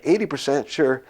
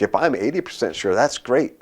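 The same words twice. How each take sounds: First: Higher-pitched disbelieving echo; re-enacted baffled disbelief; mock incredulity. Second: Said in the usual way. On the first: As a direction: query it as if it's wacky. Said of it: "looking at him like he's wacky". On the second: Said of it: "He's like".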